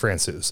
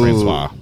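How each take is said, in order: First: The name is said ending like 'Francouz'. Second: The name is said ending like 'Francois'. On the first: The speaker calls it right. "it's Francouz" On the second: The speaker calls it wrong.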